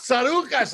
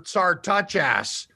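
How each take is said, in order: First: No T sound follows the R. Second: A T sound follows the R. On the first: The speaker calls it right. "it's Tsarouchas" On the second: The speaker calls it wrong. "they put a T after the R"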